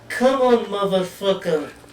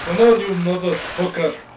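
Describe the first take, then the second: First: It is said in a higher Tanya voice. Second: It is said in a deep voice.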